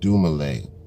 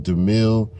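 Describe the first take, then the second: First: The name ends with a longer 'male' sound. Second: The name ends with a short 'mil' sound. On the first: The speaker calls it right. "It's pronounced Dumale" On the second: The speaker calls it wrong. "My man's name is not Dumil"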